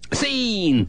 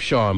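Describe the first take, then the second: First: The name is said like 'seen'. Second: The name is said like 'shawn'. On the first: This jokingly reads the spelling literally. "I call them Scene" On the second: This is how the owner of the name says it. "I'm sure he pronounces his name Sean"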